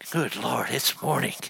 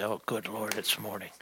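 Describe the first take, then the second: First: It is said with a bright, eager tone. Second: It is said with a groaning, dismayed tone.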